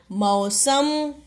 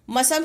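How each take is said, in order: First: मौसम slow, with a long औ; मौसम stretched as "mau-sam"; corrected word. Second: मौसम mispronounced as "ma-sam"; quick "ma" at the start of मौसम; misspelt word. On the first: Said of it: "क्या होता है". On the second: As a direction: shorten मौसम's औ to a short "a". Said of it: "शब्द नहीं होता". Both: Shown as a demonstration.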